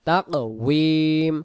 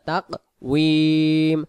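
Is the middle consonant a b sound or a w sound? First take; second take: w sound; w sound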